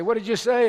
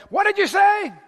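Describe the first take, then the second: First: Said in the usual way. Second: Higher, louder "What did you say?" snapped back; irritated snap. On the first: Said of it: "and I say". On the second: Retold or imitated. Fasting husband snapping at his wife, irritated. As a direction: bite her head off with the question. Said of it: "and I".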